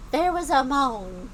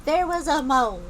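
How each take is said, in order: Both takes have the same delivery.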